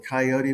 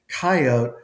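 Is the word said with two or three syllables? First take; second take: three; two. First: The word is said with three syllables. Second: The word is said with two syllables. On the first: "I know you and a lot of people refer to this animal as a coyote" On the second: "the two syllable one"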